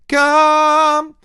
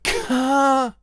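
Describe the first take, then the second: First: It starts with a softened, g-like sound. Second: It starts with a hard k and an air burst. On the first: The speaker calls it right. "I've slightly softened off the consonant from stopping it air dumping" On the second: The speaker calls it wrong. "instead of come"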